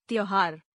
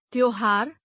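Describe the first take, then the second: First: त्योहार with "au" for "o"; mispronounced. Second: Said in the usual way. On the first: Shown as a demonstration. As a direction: say त्योहार as "tyauhaar". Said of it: "अशुद्ध". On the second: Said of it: "शुद्ध".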